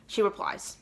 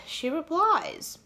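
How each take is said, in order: First: Said in the usual way. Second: High, drawn-out suspenseful reveal; slow, higher-pitched dramatic announcement. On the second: Shown as a demonstration. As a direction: stretch it out slowly for suspense.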